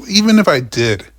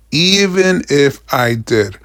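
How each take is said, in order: First: Said in the usual way. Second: "even if I did" slowly, each word weighted; emphatic repeat. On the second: Real, not acted. Driver disputing theft claim, slow emphatic "even if I did". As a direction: spell out "even if I did" deliberately.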